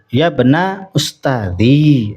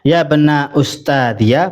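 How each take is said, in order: First: The last word ends in a plain long 'ee'. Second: The last word ends with an added 'ya' syllable. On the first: "dengan menetapkan ya dan disukun" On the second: "boleh dibaca fathah"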